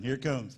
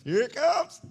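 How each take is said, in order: First: Said in the usual way. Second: High, loud call rising at the end; sudden loud warning. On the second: Real, not acted. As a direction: call it out higher and louder. Repeats the warning, suddenly raised.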